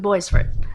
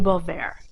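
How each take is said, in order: First: The name is read out as English spelling. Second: The name is said with French pronunciation. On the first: This is how the family always said it. "We just always pronounced it phonetically" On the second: This is the technically correct form. "it's technically"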